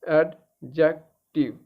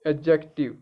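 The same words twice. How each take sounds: First: एडजेक्टिव slowly, syllable by syllable; phonetic breakdown. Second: Said in the usual way. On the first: Shown as a demonstration. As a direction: break एडजेक्टिव into three separate slow parts. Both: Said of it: "अब इसमें phonetics भी".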